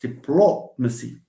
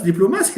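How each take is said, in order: First: The stress is on the third-to-last syllable. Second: The stress is not on the third-to-last syllable. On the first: The speaker calls it right. "It's this plo that we stress" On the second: The speaker calls it wrong. "that's diplomacy. That's Arabic"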